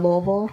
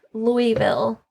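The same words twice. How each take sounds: First: Louisville slurred, without the "ee"; Louisville run together as "Loo-vul"; local Louisville pronunciation. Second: Louisville with a clear "ee" in the middle; Louisville as three full syllables, Louie-ville; full Louisville pronunciation. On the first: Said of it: "instead of Louisville". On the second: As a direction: say Louisville as LOO-ee-vill. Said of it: "People say, uh". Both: Shown as a demonstration.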